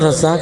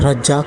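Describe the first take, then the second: First: The middle consonant is a z sound. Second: The middle consonant is a j sound. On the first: The speaker calls it wrong. "रज़ाक नहीं" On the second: The speaker calls it right. "Pronunciation उसका जे चाहिए मुझे"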